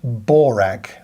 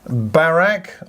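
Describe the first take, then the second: First: The first vowel is a rounded 'aw' sound. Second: The first vowel is an open 'ah' sound.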